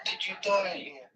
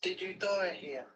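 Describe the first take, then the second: First: Softly spoken voiced question; hushed, careful, still voiced; talking to a ghost. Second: Breathy whisper, slow; whispered to a ghost. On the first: Asking spirits, ghost hunt. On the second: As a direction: whisper it slowly into the dark. Repeats question whispered to spirit. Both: Real, not acted.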